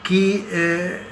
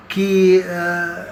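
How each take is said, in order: Both takes have the same delivery.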